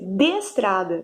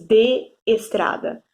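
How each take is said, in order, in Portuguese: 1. As duas vogais se juntam em uma só sílaba. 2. As duas vogais ficam em sílabas separadas. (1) "elas se unirão, ó, vai ser de estrada" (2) "Não aparece esse de estrada"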